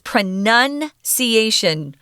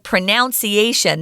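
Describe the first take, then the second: First: The second syllable differs from the verb 'pronounce'. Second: The second syllable sounds like the verb 'pronounce'. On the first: The speaker calls it right. "It's pronunciation" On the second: The speaker calls it wrong. "you say it like you do the, the noun or the verb to pronounce ... That's incorrect"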